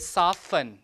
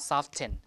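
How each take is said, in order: First: The t is silent; f goes straight into n. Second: The t is sounded between the f and n. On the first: The speaker calls it right. "We say soften" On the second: The speaker calls it wrong. "not soften"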